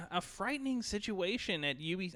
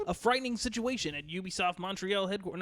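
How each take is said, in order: First: Said in the usual way. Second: Put-on old-fashioned newsreel anchor voice; booming vintage broadcast read; 1960s news anchor. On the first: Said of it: "read this like a news anchor". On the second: Shown as a demonstration. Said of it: "that's like a nineteen sixties news anchor".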